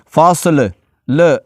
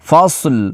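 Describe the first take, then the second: First: The final L ends with a short echoing bounce. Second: The final L is held steady without any bounce. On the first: The speaker calls it wrong. "लाम पर कलकला कर देते हैं, फासल ल ऐसे कर देते हैं" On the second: The speaker calls it right. "लाम को मैंने पढ़ा है लेकिन कलकला नहीं किया"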